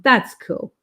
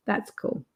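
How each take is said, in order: First: Said in the usual way. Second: An afterthought dropped to a murmur; soft murmured echo. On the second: Real, not acted. Host echoing her own comment to chat, much softer. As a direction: repeat it much softer, almost to herself. Quiet repeat under her breath.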